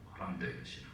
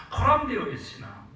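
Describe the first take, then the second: First: 코람데오의 신앙 whispered, unvoiced and soft. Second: Said in the usual way. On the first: Shown as a demonstration. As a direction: breathe 코람데오의 as a hushed echo. Repeated in a whisper. (속삭이는 코람데오의 신앙)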